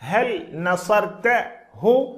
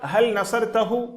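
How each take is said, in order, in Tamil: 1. 'hu' முடிவு வினையிலிருந்து தனியாகப் பிரிகிறது. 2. 'hu' முடிவு வினையுடன் நேராகத் தொடர்ந்து வருகிறது. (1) "இதை நாம் புரிவதற்காக தனித்தனியாக பிரித்து சொல்கிறோம்" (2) "ஈஸியாக சொல்லிவிடலாம்"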